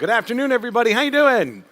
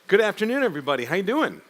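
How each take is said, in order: First: It is said with lively feeling and energy. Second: It is said in a plain, low-energy way.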